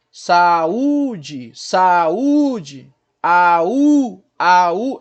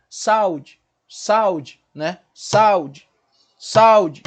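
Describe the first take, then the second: First: Loud, stretched "saúde", sa-Ú-de; strong U. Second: "saúde" as two syllables, SAU-de, stress on A; wrong pronunciation. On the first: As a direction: hit the U hard and long, apart from A, in "saúde". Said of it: "ele é forte também. Ele não é fraco". ("saúde" alto, com o U forte e separado do A) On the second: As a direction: collapse "saúde" into a short, punched SAU-de. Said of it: "E não é assim a pronúncia". ("saúde" errado, com ditongo: SAU-de) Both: Shown as a demonstration.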